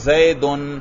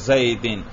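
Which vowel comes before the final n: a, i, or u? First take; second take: u; i. First: The word ends in -un. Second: The word ends in -in. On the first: The word is in the nominative case. "کبھی آپ پیش پڑھ رہے ہیں" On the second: The word is in the genitive case. "اور کبھی زیر"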